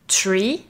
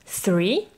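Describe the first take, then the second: First: The word begins with a hard 't' sound. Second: The word begins with a soft 'th' sound. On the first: The speaker calls it wrong. "et pas tree, car là tu parles d'un arbre" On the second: The speaker calls it right. "se dit three"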